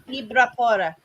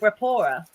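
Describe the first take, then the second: First: The name begins with an I sound. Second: The name begins with a B sound. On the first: "It's often pronounced I as well" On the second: "It might be Brapora"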